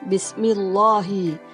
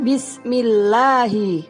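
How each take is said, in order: First: The lam in Allah sounds heavy, like O. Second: The lam in Allah sounds light, like A. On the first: The speaker calls it wrong. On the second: The speaker calls it right. "bunyinya terdengar A. Yang betul membacanya"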